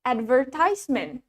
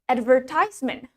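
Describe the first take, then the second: Both takes have the same delivery.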